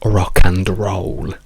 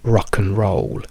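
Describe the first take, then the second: First: The word 'and' is said fully, with its d. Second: The word 'and' shrinks to a weak 'n' sound. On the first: The speaker calls it wrong. "non diciamo rock and roll" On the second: The speaker calls it right. "Noi diciamo rock and roll"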